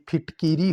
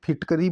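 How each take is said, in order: First: फिटकीरी with "kee"; correct pronunciation. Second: फिटकरी with "ka"; everyday pronunciation. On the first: Teacher contrasting common speech, फिटकीरी with kee. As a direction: say फिटकीरी as "phit-kee-ree". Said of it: "लेकिन ये फिटकीरी होता है". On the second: Teacher quoting common speech, फिटकरी with ka. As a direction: say फिटकरी as "phit-ka-ree". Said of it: "आम भाषा में". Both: Shown as a demonstration.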